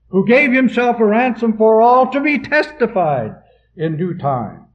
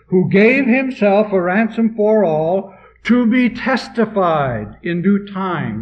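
First: It runs on with no pause after 'for all'. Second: There is a pause after 'for all'.

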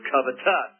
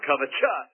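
First: The word ends with a plain 'tus' sound. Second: The word ends with a 'chus' sound. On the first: The speaker calls it right. "Somebody told him the word is covetous" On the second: The speaker calls it wrong. "not covetous, and they spelled it C-H-O-U-S at the end"

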